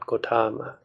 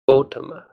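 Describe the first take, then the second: First: The stress is on the second syllable. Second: The stress is on the first syllable. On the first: The speaker calls it wrong. "not Gotama" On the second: The speaker calls it right. "here the stress goes on the O. The word is pronounced Gotama"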